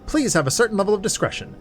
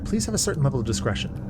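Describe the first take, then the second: First: It is read in the narrator's normal voice. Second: It is read in a put-on character voice. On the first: The speaker calls it wrong. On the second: The speaker calls it right.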